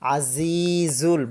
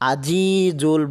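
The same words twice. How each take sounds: First: The middle consonant is a buzzing 'z' sound. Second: The middle consonant is a 'j' sound. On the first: The speaker calls it right. "জা জা দিয়ে বলবো ... বাতাস বের হবে" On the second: The speaker calls it wrong. "আমরা জিম দিয়ে উচ্চারণ করে ফেলি, আজিজুল বলে ফেলি"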